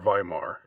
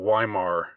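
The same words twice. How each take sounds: First: It begins with a German V sound. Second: It begins with an English W sound. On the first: "if you want to pronounce it in the Germanic way" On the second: "I'm just gonna, pronounce the W part"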